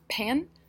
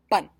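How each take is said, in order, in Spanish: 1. La p va seguida de un soplo de aire. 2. La p no va seguida de soplo de aire. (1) "cuando nosotros los ingleses decimos pan, hay aire que fluye" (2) "completamente obstruye. No hay el flujo de aire"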